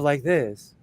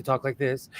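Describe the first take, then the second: First: Said in the usual way. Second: Valley talk, as at home; casual Valley speak; natural Valley accent. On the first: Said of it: "instead of like this". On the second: Shown as a demonstration. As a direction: let the Los Angeles Valley accent out. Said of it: "So I actually talk like this".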